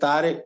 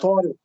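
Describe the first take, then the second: First: It starts with a plain, light t sound. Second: It starts with a heavy, emphatic t sound. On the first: The speaker calls it wrong. "ता गलत है" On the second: The speaker calls it right. "वो ये नहीं कहते हैं या तारिक"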